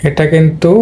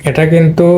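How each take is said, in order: No difference in how they are said.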